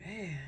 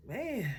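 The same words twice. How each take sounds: First: Breathy hushed "Man"; whispered man. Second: "Man" said aloud, much higher; voiced "Man" high. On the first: Retold or imitated. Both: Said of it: "I was like".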